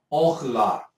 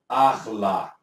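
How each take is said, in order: First: "orla" opening on an O sound; pronounced with O. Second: "arla" opening on an A sound; pronounced with A. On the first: Teacher shows the class the Hebrew word, "orla" with O. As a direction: say "orla" with O, not A, as the first vowel. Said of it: "A pronúncia é". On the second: Teacher shows how the sign changes it, "arla" with A. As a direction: say "arla" with A, not O, as the first vowel. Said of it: "Agora tô falando que a pronúncia é". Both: Shown as a demonstration.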